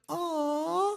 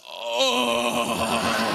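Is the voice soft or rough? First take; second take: soft; rough. First: It is said in a soft, sweet voice. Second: It is said in a coarse, rough voice.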